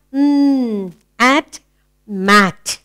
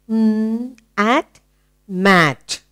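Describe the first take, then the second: No difference in how they are said.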